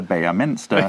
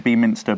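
First: Beaminster stretched to BAY-a-minster; mispronounced town name. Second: Beaminster said BEE-minster, with a long EE; mispronounced town name. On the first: Listing his botched attempts at the town name, Beaminster as BAY-a-minster. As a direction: say "Beaminster" as four syllables starting like "bay". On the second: Owning up to a botched town name, Beaminster as BEE-minster. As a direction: say "Beaminster" as three syllables starting like "bee". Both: Shown as a demonstration. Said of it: "I've pronounced it".

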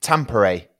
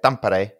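First: Tampere said the non-native English way; deliberately unpolished, anglicised Tampere; butchered pronunciation. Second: Tampere the Finnish way, with a tapped r; native pronunciation. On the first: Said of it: "I guess I would butcher it". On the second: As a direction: say Tampere as Finns do. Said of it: "that's how they say it". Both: Shown as a demonstration.

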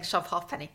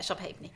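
First: "halfpenny" said as half-penny; "halfpenny" pronounced as two words, half and penny; halfpenny as spelt. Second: "halfpenny" said as HAYP-nee; "halfpenny" squeezed into two syllables, HAYP-nee; traditional ha'penny pronunciation. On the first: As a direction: say "halfpenny" with the f sounded, HAHF-penny. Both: Real, not acted.

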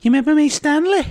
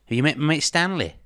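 First: Loud, very high-pitched Scouse attempt; Scouse accent. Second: Put-on higher-pitched stab at a Liverpool accent; failed Liverpool accent. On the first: Liverpool hooligan greeting a rival with his knife, exaggerated Scouse accent. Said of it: "Can you do a Scouse accent". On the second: Quoting Liverpool hooligans drawing knives, in failed Liverpool accent. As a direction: quote it in a not-quite-Liverpool accent. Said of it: "that's not a Liverpool accent".

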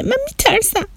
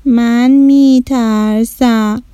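First: High, softer frightened little voice; scared child. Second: Slow, drawn-out mild fear; hesitate, a touch afraid; mildly scared child. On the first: Child admitting fear to his sister, high and hushed. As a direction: shrink back, afraid. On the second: Shadi confessing fear to her brother, slowly. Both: Acted.

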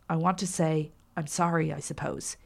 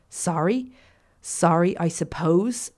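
First: Halting apology, trailing off softly; faltering apology. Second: Apology thrown back as a question; mocking mimicry. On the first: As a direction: falter mildly, let the last words drop away. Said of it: "he faltered". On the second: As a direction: mimic it incredulously, lifting at the end. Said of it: "Fernandez mimicked". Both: A narrator's reading.

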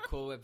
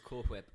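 First: Cool Whip with a simple "w" at the start of Whip; plain W in Whip. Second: Cool Whip with "hw" blown at the start of Whip; breathy H in Whip. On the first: Laughing over a version of the bit, plain W in Whip. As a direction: say Whip as "wip", no puff of air. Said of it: "our version of Cool Whip versus Cool Whip". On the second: Laughing over the famous bit, hw sound in Whip. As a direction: puff an H before the W in Whip. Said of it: "Cool Whip versus Cool Whip". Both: Shown as a demonstration.

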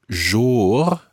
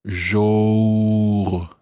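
First: Jour said like English more; jour rhyming with more. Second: Jour with lips rounded, close to more. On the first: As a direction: try jour as in more, open o. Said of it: "as in rhyming with more". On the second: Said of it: "and then rounding your lips". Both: Shown as a demonstration.

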